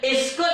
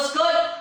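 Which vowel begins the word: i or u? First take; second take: i; u. First: The word begins with an i vowel. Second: The word begins with a u vowel. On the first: "Ada yang jawab iskut" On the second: "Huruf ketiga baris depan. Ketika itulah tuan-puan baca uskut"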